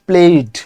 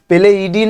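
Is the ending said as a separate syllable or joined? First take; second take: joined; separate. First: The ending is joined into one syllable. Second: The ending is said as a separate syllable. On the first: The speaker calls it right. "প্লেইড একেবারে ঠিক এরকম ভাবে" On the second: The speaker calls it wrong. "প্লেটকে একসাথে না বলে প্লে ইডি করছে"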